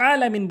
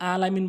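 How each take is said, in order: First: "আলামিন" opening on a squeezed throat sound; correct recitation. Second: "আলামিন" with a plain a; mispronounced recitation. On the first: Teacher corrects the prayer word, throaty "আলামিন". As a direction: start "আলামিন" from mid-throat. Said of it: "বলতে হবে". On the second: Teacher warns about prayer, wrong plain "আলামিন". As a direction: say "আলামিন" without throat constriction. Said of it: "নামাজ ভেঙে যায়". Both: Shown as a demonstration.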